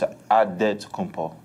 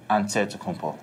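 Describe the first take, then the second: First: The name is said without an 'nt' sound. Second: The name is said with an 'nt' sound. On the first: "you gotta say it with the E" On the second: "in the Greek way, you say with the N T"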